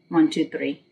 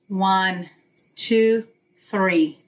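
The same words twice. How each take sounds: First: The numbers are counted fast. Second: The numbers are counted slowly.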